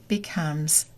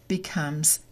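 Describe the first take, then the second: No difference in how they are said.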